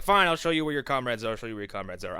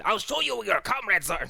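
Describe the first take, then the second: First: Said in the usual way. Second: Higher, oddly sly servant voice; servant's voice. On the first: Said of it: "I'm sorry, he said". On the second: Retold or imitated. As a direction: redo the line in the servant's put-on voice. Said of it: "I love doing that guy's voice".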